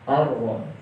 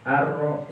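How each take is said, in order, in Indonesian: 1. Huruf r-nya tebal dan berat. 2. Huruf r-nya tipis, seperti r biasa. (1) "melainkan ditebalkan pengucapannya" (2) "tidak seperti huruf R pada umumnya. Ar-ra seperti itu tidak"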